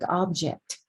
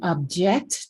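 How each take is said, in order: First: The stress is on the first syllable. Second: The stress is on the second syllable. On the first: It is a noun meaning a thing. "treat a word as a linguistic object" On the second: It is a verb meaning to oppose. "their stress patterns change with the role"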